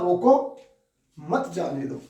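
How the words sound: The pause comes right after 'roko'. Stop him, do not let him go. "पहले कहा ... मतलब यहां रोकने का भाव है"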